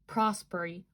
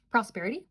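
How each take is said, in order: First: "Prosperity" slurred to prosp-er-ee, dropping the t syllable; mispronounced word. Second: "Prosperity?" said in full as pros-PER-i-ty, with a rise; corrected pronunciation. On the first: Reading the tarot cards, she stumbles: "Prosperity" as prosper-ee. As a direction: say "Prosperity" as "prosper-ee", swallowing the middle. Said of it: "like, not prosperity, sorry". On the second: Correcting herself for the viewer: "Prosperity?" fully, questioning. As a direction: carefully sound out every syllable of "Prosperity?". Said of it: "Yes, that's the word". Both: Real, not acted.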